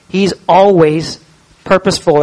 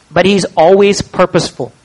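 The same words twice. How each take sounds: First: "always" and "purposeful" drawn out slow, each word weighted; slow down and lean on "always purposeful"; slow emphatic repeat. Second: Said in the usual way. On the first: Shown as a demonstration. Preacher repeating it for the congregation, slow and weighty.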